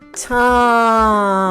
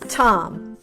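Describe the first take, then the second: First: The word is stretched out slowly. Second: The word is said at normal speed.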